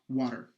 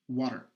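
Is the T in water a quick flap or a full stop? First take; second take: flap; flap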